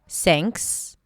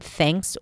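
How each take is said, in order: First: It starts with a hissing S sound. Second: It starts with a breathy TH, tongue between teeth. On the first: The speaker calls it wrong. "people substitute it with an S" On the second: The speaker calls it right. "pronounce it with the tongue out and allow air to come out"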